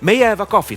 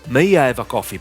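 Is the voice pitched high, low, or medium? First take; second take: medium; low. First: The voice is pitched at a medium level. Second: The voice is pitched low. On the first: "Medium tone, that is my voice now" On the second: "Low tone"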